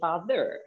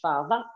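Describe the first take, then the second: First: It is said with an American accent. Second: It is said with an Australian accent.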